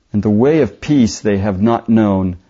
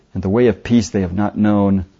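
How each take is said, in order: Both takes have the same delivery.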